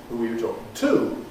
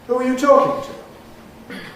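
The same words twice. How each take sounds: First: The stress falls on the word to. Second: The stress falls on the word talking. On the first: The speaker calls it wrong. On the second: The speaker calls it right.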